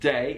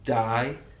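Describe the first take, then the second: First: It is said with a standard English vowel. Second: It is said with a Brummie vowel.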